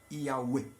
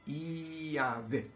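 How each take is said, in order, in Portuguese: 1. Uma vogal u longa, depois um e curto. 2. O som do meio é a consoante v. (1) "a sílaba U é dita de forma mais comprida e o E mais curto" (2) "O nome de Deus é conhecido como Iavé"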